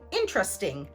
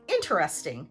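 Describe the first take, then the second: First: The word is said with three syllables. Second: The word is said with four syllables. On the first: "British English speakers may often say interesting, three syllables" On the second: "American English speakers will say interesting, four syllables"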